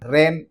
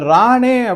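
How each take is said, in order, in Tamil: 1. இந்தப் பெயர் 'n' மெய் ஒலியில் முடிகிறது. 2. இந்தப் பெயர் திறந்த உயிர் ஒலியில் முடிகிறது. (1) "சாதாரணமா என்ன படிப்பாங்க அப்படின்னா, ரேன் அப்படின்னு படிப்பாங்க" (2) "அந்த ராணே அப்படிங்கிறது"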